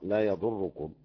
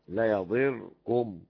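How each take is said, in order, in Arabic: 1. الضاد مضمومة، والراء مشددة. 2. الضاد مكسورة، والراء مفردة. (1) "ضم الضاد وضم تجديد الراء" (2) "يكسر الضاد ويسكن الراء"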